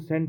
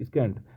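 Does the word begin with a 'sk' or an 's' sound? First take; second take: s; sk. First: The word begins with a plain 's' sound. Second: The word begins with a 'sk' sound. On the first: The speaker calls it right. "इसमें ए silent है और इसको सेंट बोलते हैं" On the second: The speaker calls it wrong. "मैं इसको पढ़ रहा था स्कैंट स्कैंट स्कैंट"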